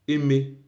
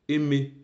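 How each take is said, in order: The two takes are said the same way.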